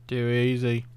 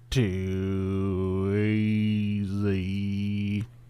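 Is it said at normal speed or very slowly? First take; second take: normal; very slowly. First: It is said at a normal speed. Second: It is said very slowly, drawn out.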